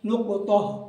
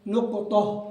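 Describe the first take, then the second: First: The consonant bounces and the ending is exaggerated. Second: The consonant bounces and the ending is exaggerated.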